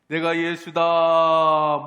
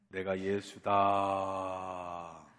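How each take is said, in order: First: It is said in a loud voice. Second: It is said in a quiet voice. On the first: "크게" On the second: "내가 소리가 너무 작았나?"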